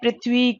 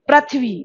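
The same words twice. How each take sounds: First: The first syllable is said with 'ri'. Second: The first syllable is said with 'ra'. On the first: The speaker calls it right. "इसका उच्चारण री होता है" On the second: The speaker calls it wrong. "बहुत से विद्यार्थी इनका गलत उच्चारण भी करते हैं, जैसे"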